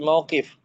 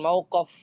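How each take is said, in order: First: The vowel before the final consonant is i. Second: The vowel before the final consonant is a. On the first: The speaker calls it right. "tapi mauqif" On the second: The speaker calls it wrong. "bukan mauqaf"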